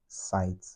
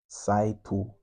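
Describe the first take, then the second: First: The word ends with a bare consonant sound. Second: The word ends with an added vowel sound. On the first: This is the original English pronunciation. "not sight" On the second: This is the Japanese loan-word pronunciation. "in a Japanese tongue, it would be saito"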